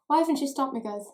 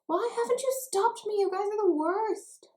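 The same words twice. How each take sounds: First: Louder, higher mock complaint to the viewers; mock reproach. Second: Very high-pitched mock wail of blame; over-the-top squeal of reproach; hammed-up mock outrage. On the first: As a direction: playfully blame them, punching the first word. Mock-blames viewers for her excess. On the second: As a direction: whine it way up high, drawing out the end.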